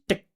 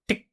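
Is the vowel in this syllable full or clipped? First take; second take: clipped; clipped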